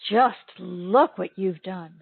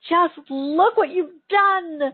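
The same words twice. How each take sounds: First: The voice sounds heavy, critical and shaming. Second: The voice sounds warm, admiring and proud. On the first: The listener should feel ashamed of what they did. The speaker calls it wrong. "you can feel the heavy weight of shame and criticism in my voice" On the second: The listener should feel proud of what they achieved. The speaker calls it right. "I'm so proud of all that you've accomplished"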